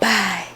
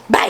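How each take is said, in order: First: It is said softly. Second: It is said loudly.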